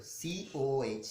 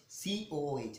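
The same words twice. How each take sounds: First: COH spelled letter by letter, very slowly; teacher dictating COH at a crawl; slow spelling out. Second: Said in the usual way. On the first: Shown as a demonstration.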